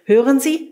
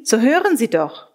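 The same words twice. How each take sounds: First: A rising call for attention; a raised, questioning hail. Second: Insistent call falling at the end; the call pressed home with a falling end; urgent call. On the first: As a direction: call out to someone across the wood. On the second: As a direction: press them to listen, urgently. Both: Acted. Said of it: "Jemand rief mir zu".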